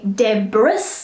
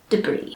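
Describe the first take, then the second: First: An S sound is pronounced at the end. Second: The final S is silent. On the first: The speaker calls it wrong. "Try not to say debris, as I often hear" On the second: The speaker calls it right. "silent S, it's debris"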